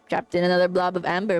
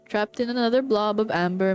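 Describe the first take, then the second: First: It is read in a put-on character voice. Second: It is read in the reader's normal voice.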